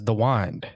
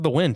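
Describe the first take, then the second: First: Wind is said an unusual, odd-sounding way. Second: Wind is said the ordinary, everyday way. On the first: This is how an old man says it. "he says the wind" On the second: This is how people normally say it. "instead of the wind"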